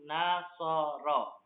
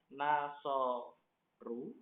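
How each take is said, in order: First: The word ends with a final a vowel. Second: The word ends with a final u vowel. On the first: The speaker calls it right. "Dia hanya dibaca satu, yaitu nasoro" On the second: The speaker calls it wrong. "nggak bisa kita baca nasoru, nggak bisa"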